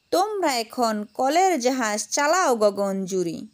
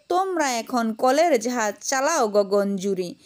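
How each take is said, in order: No difference in how they are said.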